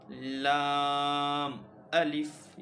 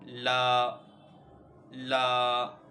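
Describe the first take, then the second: First: लाम and अलिफ drawn out slowly and loudly, letter by letter; spelled-out reading. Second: ला said as one loud joined syllable; wrong joined reading. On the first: Teacher showing students the right spelled reading, slow and loud. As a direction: stretch out लाम, then अलिफ, each letter on its own. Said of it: "बल्कि हम किस तरह से पढ़ेंगे". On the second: Teacher showing students the wrong reading, loud and joined. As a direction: say ला ला loudly as one sound, the wrong way. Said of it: "ऐसे नहीं पढ़ेंगे". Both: Shown as a demonstration.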